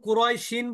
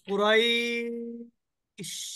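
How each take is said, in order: First: The 'ay' sound is short; the word continues. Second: The 'ay' sound is lengthened before the stop. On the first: The reader keeps going without stopping. "কুরাইশিন বললে এখানে রতে কোনো মাদ নাই" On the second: The reader stops at this word. "এখানে থেমে যাই কুরাইশ, এটা কিন্তু মাদ্দে লিন হয়ে গেল"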